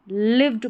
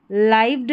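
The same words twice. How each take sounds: First: लिव्ड with a short "i"; short-vowel लिव्ड, one syllable; correct reading of lived. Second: लाइव्ड with a long "eye" vowel; wrong reading of lived. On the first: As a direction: say लिव्ड like "give" plus a d. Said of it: "लिव्ड पढ़ेंगे". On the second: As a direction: say लाइव्ड to rhyme with "dived". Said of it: "लाइव्ड नहीं पढ़ना है". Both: Shown as a demonstration.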